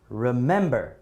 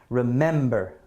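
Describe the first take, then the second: First: The stress is on the second syllable. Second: The same.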